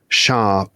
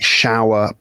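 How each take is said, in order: First: The word is said in a posh accent. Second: The word is said in a plain accent.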